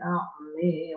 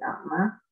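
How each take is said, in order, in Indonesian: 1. Vokal akhir condong ke e. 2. Vokal akhir adalah a terbuka biasa.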